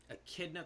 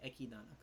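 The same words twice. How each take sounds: First: Said in the usual way. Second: Echidna said as Ekidana, extra vowel; Japanese pronunciation of Echidna. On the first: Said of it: "I'm still gonna say Ekidana". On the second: Shown as a demonstration. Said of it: "that's how they say it in Japanese".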